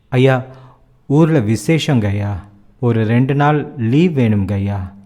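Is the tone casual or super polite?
super polite. It is said in a super polite tone.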